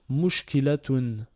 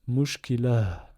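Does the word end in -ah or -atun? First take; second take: -atun; -ah. First: The word ends with a full -atun ending. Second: The word ends with a breathy h, no vowel. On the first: The word is read in the middle of a passage. "Ça nous donne le mot mushkilatun" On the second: The word is the last one of a verse. "H expiré sans voyelle"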